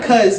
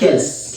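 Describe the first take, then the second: First: The syllable is said with an 'uh' vowel. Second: The syllable is said with an 'ih' vowel. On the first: The speaker calls it wrong. "Not cuss" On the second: The speaker calls it right. "but it's kiss"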